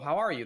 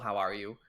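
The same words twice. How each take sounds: First: The word how is strongly stressed. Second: The word how gets no special stress.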